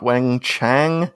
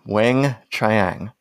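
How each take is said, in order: First: The last part sounds like 'chang'. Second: The last part sounds like 'chee-ang'. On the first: The speaker calls it wrong. "Not Weng-Chang" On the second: The speaker calls it right.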